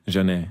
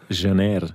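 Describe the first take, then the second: First: "Janeer" without the R, ending on the vowel; silent final R. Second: "Janeer" with the final R sounded; R at the end. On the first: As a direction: drop the R at the end of "Janeer". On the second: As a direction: let the R be heard at the end of "Janeer". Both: Shown as a demonstration. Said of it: "Ohne das R".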